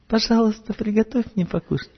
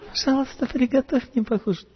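First: The request is said in a softer, gentler tone. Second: The request is said in the gentlest, tenderest tone. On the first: "понежнее" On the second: "Еще понежнее"

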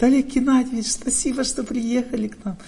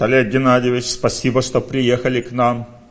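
First: It is said in a woman's manner. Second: It is said in a man's manner. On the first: A woman expresses thanks in her own feminine way. "Женщина говорит" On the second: A man expresses thanks in his own masculine way. "мужчина говорит"

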